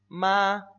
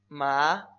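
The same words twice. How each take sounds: First: It is said in the first tone, drawn out. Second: It is said in the second, rising tone. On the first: "El primer tono se pronuncia... Vamos a hacerlo exagerado, vamos a alargarlo" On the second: "El segundo tono es ascendente"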